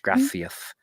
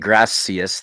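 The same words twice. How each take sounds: First: The middle consonant is a lisped th sound. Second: The middle consonant is a plain s sound. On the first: "they say gracias with the th" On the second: "they don't say gracias"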